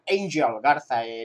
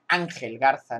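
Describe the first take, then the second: First: The name is said with English-style pronunciation. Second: The name is said with Spanish pronunciation. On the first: This is how the announcers say the name. The speaker calls it wrong. "me hace gracia, ¿no?, que lo pronuncian Angel Garza" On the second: This is how the name should have been tried. The speaker calls it right. "me habría gustado que intentaran Ángel Garza"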